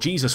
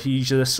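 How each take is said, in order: First: The name is given a non-Spanish pronunciation. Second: The name is given a Spanish pronunciation. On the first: The speaker calls it right. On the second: The speaker calls it wrong.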